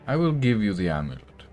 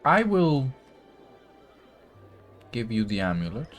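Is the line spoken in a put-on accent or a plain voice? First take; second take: plain; accent. First: It is spoken crisply with no accent. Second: It is spoken in a put-on character accent. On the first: The character has dropped the act. "No accent, no funny little little pieces. His voice is crisp" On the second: The character is still keeping up a disguise. "the voice that he's been putting on these past few encounters"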